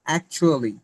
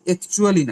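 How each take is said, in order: First: The first vowel sounds like 'a' in cat. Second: The first vowel sounds like 'e' in bed. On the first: The speaker calls it right. "Sound হবে অ্যাকচুয়ালি" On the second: The speaker calls it wrong. "অ্যাকচুয়ালি না"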